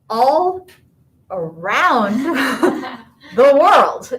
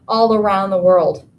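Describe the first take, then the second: First: The phrase is said slowly and drawn out. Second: The phrase is said at a normal pace.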